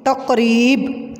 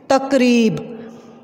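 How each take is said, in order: First: तकरीब spelled out slowly with a light क; drawn out तकरीब, each sound clear; slow correct word. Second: तकरीब said with a thick, heavy k sound; wrong heavy k. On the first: Teacher modelling the right way to say तकरीब. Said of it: "बोलें तकरीब". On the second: Teacher showing pupils the wrong way to say तकरीब. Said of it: "इसको आप लोग जब तकरीब बोलेंगे". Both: Shown as a demonstration.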